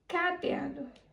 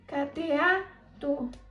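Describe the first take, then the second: First: The stress is on the first syllable. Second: The stress is on the third syllable. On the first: The speaker calls it wrong. "se a sílaba tônica mais forte fosse o K" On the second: The speaker calls it right. "Se a sílaba tônica fosse o A"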